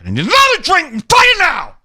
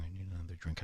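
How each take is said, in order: First: High, loud, ending in a shout; scream. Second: Very soft, muttered line; quiet. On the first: Man at a table ordering a drink, screaming. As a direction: blow up on the last words. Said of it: "emphasize the last word he says is a scream". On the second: Man at a table, first take very soft. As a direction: say it low under your breath. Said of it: "I'm going". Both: Retold or imitated.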